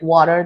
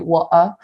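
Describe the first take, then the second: First: It is said with an American accent. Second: It is said with a British accent. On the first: "in England, they don't say like water" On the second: "they say water"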